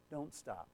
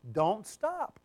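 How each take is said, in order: First: Very soft, low "don't stop"; hushed urging. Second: Firm "don't stop", lifted at the end; urging. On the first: Preacher urging listeners to keep repenting, hushed and low. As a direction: drop right down to a hushed plea. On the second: Preacher urging listeners to keep repenting, firm urging. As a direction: urge them on, voice held up. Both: Real, not acted. Preacher repeats exhortation, then drops voice.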